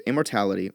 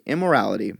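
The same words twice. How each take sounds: First: Immortality, said with a t, as "im-mor-TAL-ity"; reading immortality by mistake for immorality; misread word. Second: Immorality, no t, said "im-mo-RAL-ity"; fixing the slip with immorality; careful correction, immorality; corrected word. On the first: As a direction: slip of the tongue on immortality. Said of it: "sorry, immorality". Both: Real, not acted.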